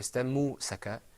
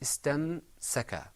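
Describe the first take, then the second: First: A u vowel follows the m sound. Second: No vowel follows the m sound. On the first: The speaker calls it wrong. "or istammu-saka" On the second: The speaker calls it right. "It was istamsaka"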